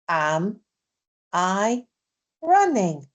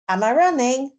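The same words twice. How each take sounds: First: The question is said at a slow pace. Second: The question is said at a fast pace. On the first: "then slow it down" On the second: "I'm going to say them quickly"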